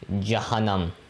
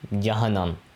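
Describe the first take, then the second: No difference in how they are said.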